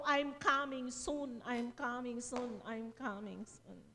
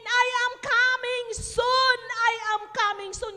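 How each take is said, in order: First: Low, slow, fading softly; hushed repetition. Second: Retold prayer cry. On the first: Retold or imitated. Preacher repeating the translated message to congregation, hushed and slow. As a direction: let each repeat sink lower and quieter. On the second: Preacher revealing the prayer's meaning, loud proclaiming voice.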